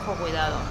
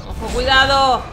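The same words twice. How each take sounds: First: Said in the usual way. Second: Loud warning shout. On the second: Real, not acted. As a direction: shout Ojo, cuidado high and loud. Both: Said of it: "repeated warning".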